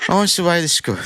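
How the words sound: It is said posh, with hissy braces-like S sounds.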